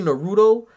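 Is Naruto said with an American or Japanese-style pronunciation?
American. The word is said with an American pronunciation. The speaker calls it wrong.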